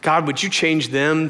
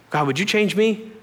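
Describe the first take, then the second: First: "them" as the pointed contrast word; stress on them. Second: "me" lifted higher at the end; earnest prayer rising onto "me"; stress on me. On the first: Old prayer about other people, stress on "them". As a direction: pray it evenly, landing on "them". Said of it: "My prayer changed from". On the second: New prayer turned on himself, rising stress on "me". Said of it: "so my prayers changed". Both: Retold or imitated.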